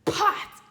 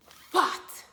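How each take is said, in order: First: "pot" with lips pressed, then popped; correct P sound. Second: "Fought" for pot, bottom lip bitten; F in place of P. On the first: Teacher trying again for a thumbs up, correct P sound. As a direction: push the air out on the p of "pot". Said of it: "push my lips together". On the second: Teacher asking what she did wrong, deliberate F for P. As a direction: open "Fought" on F where pot needs a P. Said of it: "I'm saying the F sound". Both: Shown as a demonstration.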